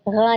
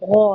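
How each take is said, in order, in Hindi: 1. अक्षर पतला और हल्का बोला जाता है। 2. अक्षर मोटा और भारी बोला जाता है। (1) "ग़ा नहीं होता" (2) "ग़ाइन को भी हमेशा हम मोटा पढ़ते हैं, गौ होता है"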